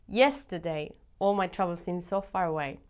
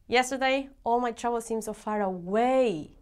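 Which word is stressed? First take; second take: yesterday; far. First: The word 'yesterday' is stressed. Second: The word 'far' is stressed.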